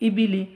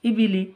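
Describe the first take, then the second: The two takes are said the same way.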